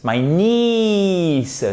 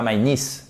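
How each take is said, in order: First: "niece" with a long, high, drawn-out "ee"; long vowel in niece. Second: "niece" with a short, quick vowel; niece too short. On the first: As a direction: stretch the "ee" of "niece" right out. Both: Shown as a demonstration. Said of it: "mais en un petit peu plus long".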